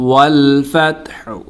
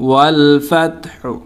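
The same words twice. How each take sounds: No difference in how they are said.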